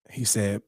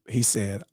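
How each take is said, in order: Both takes have the same delivery.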